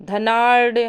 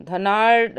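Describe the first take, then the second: No difference in how they are said.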